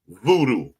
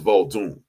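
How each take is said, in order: First: The word ends in an open 'oo' vowel. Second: The word ends in an 'n' sound. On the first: The speaker calls it wrong. "Voodoo is what you call it" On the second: The speaker calls it right. "the correct pronunciation is Vaudoon"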